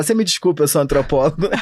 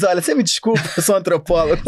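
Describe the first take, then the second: First: Sou antropólogo dito como desculpa; tom de defesa. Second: Desculpa com o título de antropólogo; tom de esquiva. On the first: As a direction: responde a uma acusação com o título. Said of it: "você fala". (soa como justificativa diante de uma acusação) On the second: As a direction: escapa de um pedido de dinheiro. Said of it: "você diz". (soa como desculpa a quem pede dinheiro) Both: Shown as a demonstration.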